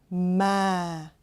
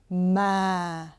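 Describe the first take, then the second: The two takes are said the same way.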